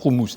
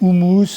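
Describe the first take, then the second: First: The word is said the original way. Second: The word is said the common French way. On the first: This is the authentic pronunciation. The speaker calls it right. "en fait la vraie prononciation c'est houmous" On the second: This is how many people say it. The speaker calls it wrong. "il y a des gens qui disent houmous"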